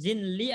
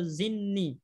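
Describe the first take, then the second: First: The L sound is pronounced after the N. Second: The L sound merges into a double N. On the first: "boleh bilang zinli" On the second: "atau zinni. Langsung disambung"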